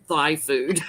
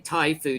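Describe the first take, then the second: First: The first word sounds like 'thigh'. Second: The first word sounds like 'tie'. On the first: The speaker calls it wrong. "He calls it Thai food" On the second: The speaker calls it right. "He can't say Thai food"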